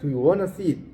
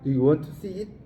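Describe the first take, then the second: First: Want to is said quickly and reduced. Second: Want to is said in full, carefully.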